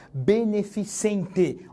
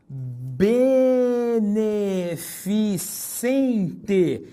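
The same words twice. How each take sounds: First: Beneficente said slowly, be-ne-fi-cen-te, no I sound; slow model beneficente; careful pronunciation. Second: Beneficente drawn out syllable by syllable, be-ne-fi-cen-te; extremely slow beneficente; very slow pronunciation. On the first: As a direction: stretch beneficente clearly. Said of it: "É comum que se ouça beneficiente". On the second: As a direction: linger on each syllable of beneficente. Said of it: "Ó". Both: Shown as a demonstration.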